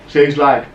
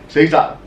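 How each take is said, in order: The two takes are said the same way.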